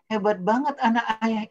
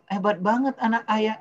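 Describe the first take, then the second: First: Put-on bright, raised, louder gushing praise for a child; over-the-top praise to impress the kid. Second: Raised, louder over-praising; the wrong way, heaped-on praise; gushing praise. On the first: Father over the phone gushing praise at his son, raised and louder. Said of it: "Itu nggak pas". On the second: Retold or imitated. Father showing how not to praise his son, gushing and louder. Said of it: "jangan bilang".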